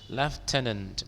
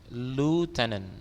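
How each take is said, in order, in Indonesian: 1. Suku kata pertama terdengar seperti 'left'. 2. Suku kata pertama terdengar seperti 'loo'. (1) "Kalau British bilang left ya" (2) "kalau Amerika ngomongnya lieutenant"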